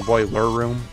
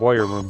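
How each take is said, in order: First: The L in boiler is clearly pronounced. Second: The L in boiler sounds like a Y. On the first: The speaker calls it right. "not going boiler room" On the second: The speaker calls it wrong. "I was putting like a Y in there"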